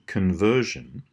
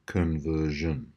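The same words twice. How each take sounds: First: "conversion" said slowly with schwas in the first and third syllables; careful slow demo. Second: "conversion" said slowly, first and third syllables reduced to uh; schwa demo. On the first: Teacher modelling schwas in conversion, slowly. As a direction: spell out "conversion" slowly, kun-VER-shun. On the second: Teacher repeating conversion slowly for the class. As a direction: draw out "conversion" with reduced kun and shun. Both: Shown as a demonstration. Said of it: "first and third syllables which have the uh".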